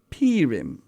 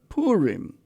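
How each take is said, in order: First: It has the Central European pronunciation. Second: It has the Western pronunciation. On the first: "Some Central European communities even call it" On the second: "Among the Westerners, it is often called"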